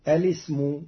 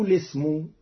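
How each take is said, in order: First: الاسم started with a hamza, elismu; with opening hamza. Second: الاسم started as lesmu, first hamza dropped; without opening hamza. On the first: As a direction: begin الاسم on a clear hamza. (الاسم بإثبات الهمزة) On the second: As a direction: begin الاسم straight on the lam. (الاسم بحذف الهمزة) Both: Shown as a demonstration. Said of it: "فتقرأ هكذا".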